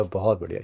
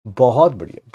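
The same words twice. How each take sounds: First: Softer बहुत बढ़िया, fading out; fading praise; trailing off. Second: Said in the usual way. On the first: Real, not acted. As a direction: let बहुत बढ़िया die away quietly.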